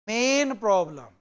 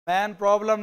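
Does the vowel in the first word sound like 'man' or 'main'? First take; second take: main; man. First: The first word has a long 'ay' vowel. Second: The first word has a short 'a' vowel. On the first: The speaker calls it right. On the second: The speaker calls it wrong. "मैन problem नहीं"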